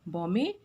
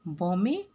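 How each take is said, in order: The two takes are said the same way.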